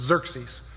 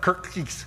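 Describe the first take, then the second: First: The name begins with a Z sound. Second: The name begins with a K sound. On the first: The speaker calls it right. "The X is actually pronounced as a Z, so it's Xerxes" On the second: The speaker calls it wrong. "It's not Kirkkees"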